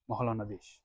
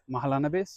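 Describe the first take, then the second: First: The name is said with a Bengali pronunciation. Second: The name is said with an English pronunciation.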